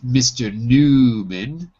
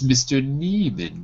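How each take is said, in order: First: The first syllable sounds like 'new'. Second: The first syllable sounds like 'knee'. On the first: The speaker calls it wrong. "In Russian, it's Mister Newman" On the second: The speaker calls it right. "in English, it's Mister Nieman because the Y is an I"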